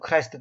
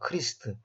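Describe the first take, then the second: First: The vowel sounds like 'eye'. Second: The vowel sounds like 'ee'. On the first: This is how people say it nowadays. The speaker calls it wrong. "요즘 사람들은 이제 크라이스트, 크라이스트 그지만 사실 이건 틀린 발음입니다" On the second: This is the original pronunciation. The speaker calls it right. "원래는 크리스트입니다"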